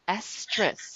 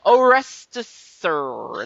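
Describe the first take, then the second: First: The name starts with an 'es' sound. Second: The name starts with an 'or' sound. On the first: The speaker calls it right. "It's not hard" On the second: The speaker calls it wrong. "they were poking fun at my name"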